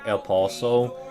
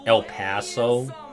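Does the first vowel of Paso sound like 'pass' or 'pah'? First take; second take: pah; pass. First: The first vowel of Paso sounds like pah. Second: The first vowel of Paso sounds like pass. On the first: The speaker is an outsider. The speaker calls it wrong. "here people clown" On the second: The speaker is from around here. The speaker calls it right. "pronounce it like, like, like, like the word pass"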